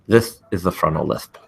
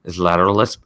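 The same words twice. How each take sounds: First: "this is the frontal lisp" with every s turned into a th, tongue between the teeth. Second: "Is lateral lisp" with each s slushed out the sides of the tongue. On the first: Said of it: "and a frontal lisp is like this". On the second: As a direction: lateral lisp on "lisp", air spilling sideways past the teeth. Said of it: "So a lateral lisp is like this". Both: Shown as a demonstration.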